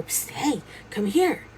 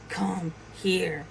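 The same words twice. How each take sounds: First: Psst, then higher-pitched beckon; insistent little summons from hiding; furtive beckoning. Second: Menacing. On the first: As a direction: call someone over on the sly. Hidden figure beckons a second time. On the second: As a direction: beckon with quiet, deliberate threat. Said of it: "the voice started getting more menacing". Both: Retold or imitated.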